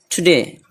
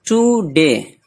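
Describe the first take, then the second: First: टुडे with a short, quick "tu"; quick first syllable. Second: टुडे with a dragged long "too"; stretched first syllable. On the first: Teacher correcting a dragged vowel, टुडे said quickly. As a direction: hurry through the tu of टुडे into de. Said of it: "जल्दी पढ़ना है". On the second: Teacher showing a common mistake, टुडे with stretched too. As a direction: draw out the oo in टुडे. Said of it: "टू को खींचना नहीं है". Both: Shown as a demonstration.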